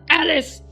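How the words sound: It is said in a scolding tone.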